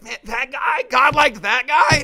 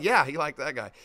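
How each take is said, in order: First: High-pitched, incredulous mock outrage; hammed-up, squawking indignant question; galled disbelief. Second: Low, settled reply to the outrage; easy, lower-pitched affirmation; matter-of-fact confirmation. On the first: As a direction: play a put-out rival who can't believe it. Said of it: "it's just gonna grind their gears". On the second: Acted. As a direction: answer the disbelief with an unbothered yes. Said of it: "And it's like".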